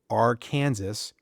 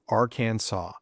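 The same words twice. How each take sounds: First: The final S is pronounced. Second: The final S is silent. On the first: The speaker calls it wrong. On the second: The speaker calls it right.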